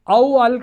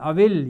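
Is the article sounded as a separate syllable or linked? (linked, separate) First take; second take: separate; linked. First: The article is sounded separately after the first word. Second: The words run together with the alif silent. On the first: The speaker calls it wrong. "वो उसको औ अल काज़िब नहीं पढ़ेंगे" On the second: The speaker calls it right. "ये लाम के इसके ऊपर ये जज़म आ जाएगा"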